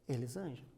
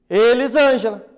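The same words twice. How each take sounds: First: The name is said softly, with little energy. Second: The name is said loudly, with much energy. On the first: "com pouca energia" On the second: "com muita energia"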